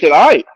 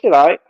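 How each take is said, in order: First: It sounds enthusiastic and impressed. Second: It sounds flat and unimpressed. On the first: The food is really good. "damn, baby" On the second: The food is only mediocre. "How's she gonna take it?"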